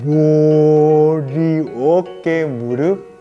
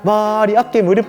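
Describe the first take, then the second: First: The words are said slowly. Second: The words are said quickly. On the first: "우리 이번엔 느리게 한번 해볼까?" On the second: "우리 이번엔 빠르게 한번 해볼까?"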